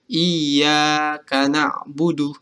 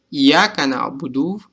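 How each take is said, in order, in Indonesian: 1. Vokal dalam 'iyyaka' dibaca dua ketukan. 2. Vokal dalam 'iyyaka' dibaca pendek. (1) "Jadi panjang dua ketukan" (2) "maka itu salah karena ada alif di sini"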